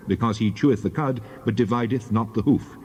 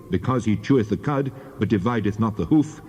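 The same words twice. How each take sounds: The two takes are said the same way.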